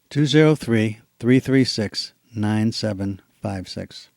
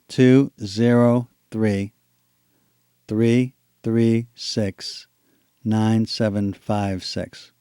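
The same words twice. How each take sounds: First: The number is said at a fast pace. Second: The number is said at a slow pace.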